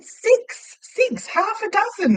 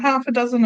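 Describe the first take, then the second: First: Very high, emphatic retelling; exasperated repetition. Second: Said in the usual way. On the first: Retold or imitated. Customer repeating an order to baffled staff, exasperated. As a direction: spell it out in high-pitched mock exasperation.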